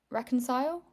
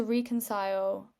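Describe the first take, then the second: First: Short 'e' in reconcile, as a question; questioning RECK-oncile. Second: Long 'ee' opening reconcile; REE-concile pronunciation. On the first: Shown as a demonstration. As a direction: say reconcile as RECK-un-sile, rising. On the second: Real, not acted. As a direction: say reconcile as REE-kun-sile.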